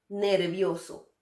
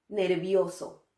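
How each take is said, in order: No difference in how they are said.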